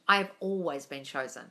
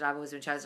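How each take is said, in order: First: It is spoken naturally, like a sincere true statement. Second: It is spoken flatly and mechanically, like a robot. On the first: The speaker believes it is true. The speaker calls it right. "Say them to yourself or out loud like it's true" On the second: The words are recited without belief. The speaker calls it wrong. "it sounds like gobbledygook and like a robot"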